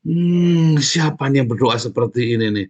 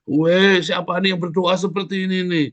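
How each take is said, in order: First: Long loud hum, then a raised questioning voice; God's pleased wonder. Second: High-pitched cry of amazement, opening loud; God's excited exclamation. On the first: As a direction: act out God noticing a beloved prayer. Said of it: "itu doa yang paling disayang sama Tuhan". (suara Tuhan yang terkesan, bertanya-tanya) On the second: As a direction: call out high, as God searching for who prayed. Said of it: "dicari kamu sama Tuhan". (seruan kagum Tuhan, melengking tinggi) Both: Acted.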